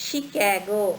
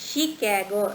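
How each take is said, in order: The two takes are said the same way.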